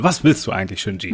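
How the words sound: The question is asked in a forceful, shaking way.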